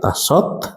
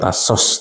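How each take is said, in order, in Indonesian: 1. Kata ini berakhir dengan bunyi t. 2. Kata ini berakhir dengan bunyi s. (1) "tapi tasot" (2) "bukan tasos"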